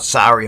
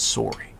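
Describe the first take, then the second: First: It is said with an American accent. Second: It is said with a Canadian accent.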